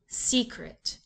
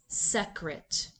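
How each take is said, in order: First: The first vowel is long. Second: The first vowel is short. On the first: "The first syllable is open and the vowel is long" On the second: "The first syllable is closed and the vowel is short"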